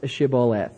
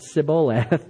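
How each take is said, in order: First: The word begins with an SH sound. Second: The word begins with an S sound. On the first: The speaker calls it right. "They couldn't pronounce Shibboleth" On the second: The speaker calls it wrong. "It came out Shibboleth. They couldn't pronounce their SHs. It came out like S"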